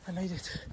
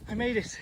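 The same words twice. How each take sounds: First: Said in the usual way. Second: Relieved, rising cry of victory; triumphant shout. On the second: Real, not acted. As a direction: celebrate making it. Reaching the shore.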